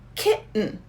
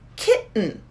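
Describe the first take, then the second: First: The middle T sound is dropped completely. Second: The same.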